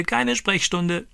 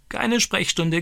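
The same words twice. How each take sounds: First: High parrot squawk, drawn out slowly; slow parrot crow. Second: High, squawking parrot voice; crowing parrot. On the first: Stani repeats the parrot's phrase, slow high squawk. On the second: Stani imitates the parrot's new phrase, high squawking crow. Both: Retold or imitated. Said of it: "kräht er".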